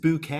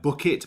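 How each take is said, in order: First: The name is said French-style, ending in 'ay'. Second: The name is said like the ordinary word bucket. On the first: A pretentious, fancier name. "it's pronounced bouquet" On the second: The ordinary, humble name. "her name was like Bucket"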